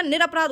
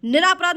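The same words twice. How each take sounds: First: निरपराध with a short ra, nira-praadh; short-vowelled nira in निरपराध; correct form shown. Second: निरापराध with a long raa, niraa-praadh; louder stretched raa in निरापराध; wrong form shown. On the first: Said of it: "निरपराध होता है". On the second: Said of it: "निरापराध नहीं होता". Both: Shown as a demonstration.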